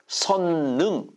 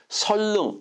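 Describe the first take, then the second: First: The middle consonants are both pronounced as n. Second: The middle consonants are both pronounced as l. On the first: The last syllable is treated as a separate element. "능을 자를 수 있어" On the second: The name is treated as one word that cannot be split. "설하고 릉을 자를 수가 없다고 생각하는 거예요"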